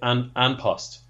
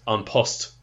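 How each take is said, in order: First: An Post is pronounced the anglicized way. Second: An Post is pronounced the Irish way. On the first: The speaker calls it wrong. "commentators on the telly kind of say An Post" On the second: The speaker calls it right. "it's actually pronounced An Post"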